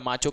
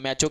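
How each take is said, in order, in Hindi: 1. यह अमेरिकी उच्चारण में बोला गया है। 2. यह ब्रिटिश उच्चारण में बोला गया है। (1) "माचो कहते हैं यूएस के प्रोनाउंसिएशन के हिसाब से" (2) "मैचो कहते हैं यूके"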